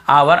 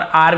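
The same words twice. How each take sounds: First: "आवर" with a v sound between aa and r; two-syllable variant. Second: "आर" as a long aa straight into r; one-syllable variant. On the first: Teacher lists both readings, two-syllable form. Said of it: "आवर भी बोलते हैं". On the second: Teacher gives the alternative reading, one syllable. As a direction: shorten the word to आर, no v sound. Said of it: "आर भी बोलते हैं". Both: Shown as a demonstration.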